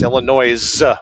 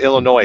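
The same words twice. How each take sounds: First: The word ends with a z sound. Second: The word ends without a z sound. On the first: The speaker calls it right. "with a Z" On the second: The speaker calls it wrong. "Don't pronounce it Illinois"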